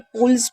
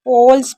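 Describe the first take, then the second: First: The vowel sounds like 'oo'. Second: The vowel sounds like 'oh'. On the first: The speaker calls it wrong. "पुल्स नहीं पढ़ेंगे" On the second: The speaker calls it right. "इसे पोल्स ही पढ़ा जाएगा"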